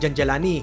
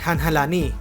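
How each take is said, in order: First: The name begins with a J sound. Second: The name begins with an H sound. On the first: The speaker calls it right. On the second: The speaker calls it wrong.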